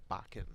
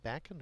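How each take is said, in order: First: Bakken with the a of "father"; broad-a pronunciation. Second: Bakken with the a of "back"; short-a pronunciation. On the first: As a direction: say Bakken as BAH-ken, as the other option. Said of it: "It's probably Bakken". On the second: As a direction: say Bakken as BACK-en, as one option. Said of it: "is it Bakken or Bakken?". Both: Shown as a demonstration.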